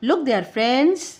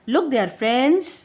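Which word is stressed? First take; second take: friends; friends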